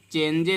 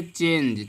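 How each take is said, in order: First: चेंजे with a voiced final E, "chen-jay"; wrong spelled-out reading. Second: Said in the usual way. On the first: Shown as a demonstration. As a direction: add an "ay" syllable to the end of चेंजे. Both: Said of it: "चेंजे नहीं पढ़ते हैं".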